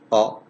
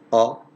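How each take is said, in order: First: The vowel is held only briefly. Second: The same.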